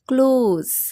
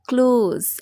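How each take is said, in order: First: The word ends with a z sound. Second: The same.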